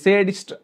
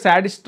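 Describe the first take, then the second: First: The first vowel sounds like 'say'. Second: The first vowel sounds like 'sad'. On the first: "సేడిస్ట్ అన్నారాయన"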